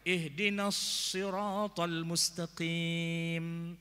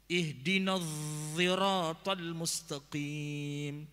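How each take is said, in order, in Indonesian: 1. Siratal dimulai dengan bunyi s yang berat, emfatik. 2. Siratal dimulai dengan bunyi bersuara, seperti z. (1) "Ada yang baca sod" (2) "Ada lagi yang bacanya dha"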